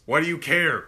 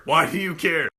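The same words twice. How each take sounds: First: Said in the usual way. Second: Louder insistent "Why do you care?"; louder repeat. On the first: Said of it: "repeated line". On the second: Acted. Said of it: "repeated line, louder".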